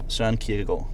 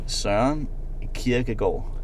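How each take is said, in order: First: The name is said at normal speed. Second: The name is said slowly.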